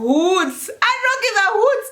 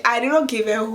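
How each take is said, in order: First: Much higher and slow, every word hit; emphatic repeat. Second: Said in the usual way. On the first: Real, not acted. Insisting she didn't care about people staring, slow and high. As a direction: drag out "I did not give a hoot" with a rise on "hoot".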